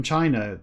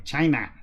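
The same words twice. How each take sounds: First: Said in the usual way. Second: Bad impression, exaggerated "China"; Donald Trump. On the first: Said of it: "have to do it in the voice". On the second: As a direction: hit "China" as two punched syllables in caricature. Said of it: "That's an impression of Donald Trump".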